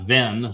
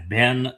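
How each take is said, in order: First: The word begins with a v sound. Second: The word begins with a b sound. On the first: The speaker calls it wrong. "it's not Ven" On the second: The speaker calls it right. "B is a B"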